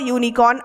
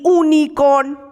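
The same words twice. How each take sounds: First: The word starts with a 'y' sound. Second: The word starts with a plain vowel. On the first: The speaker calls it right. "যখন ইউটা বলছো তখন একটা ওয়াই ইউ ওয়াই আসছে আগে" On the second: The speaker calls it wrong. "আমরা কিন্তু বলি না"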